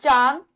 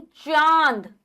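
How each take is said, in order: First: चांद with a plain n, 'chaan'; चांद as a short 'chaan'; anusvara n. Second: चांद with a nasal long aa, 'chaa~nd'; drawn nasal aa in चांद; nasalised vowel. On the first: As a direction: say चांद wrongly without nasalising the vowel. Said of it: "अनुस्वार नहीं". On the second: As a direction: let the vowel of चांद go through the nose. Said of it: "अनुनासिक". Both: Shown as a demonstration.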